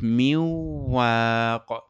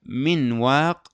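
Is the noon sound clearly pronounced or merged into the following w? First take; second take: merged; clear. First: The n merges into w, keeping only nasality. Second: The n is pronounced clearly before the w.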